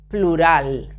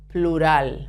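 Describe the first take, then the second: Both takes have the same delivery.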